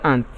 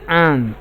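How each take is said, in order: First: The vowel is a short A sound. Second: The vowel is a long A sound. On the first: The speaker calls it wrong. "not ant" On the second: The speaker calls it right. "long A"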